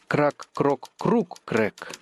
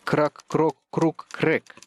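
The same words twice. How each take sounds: First: The stress falls on the third syllable, круг. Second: The stress falls on the fourth syllable, крэк.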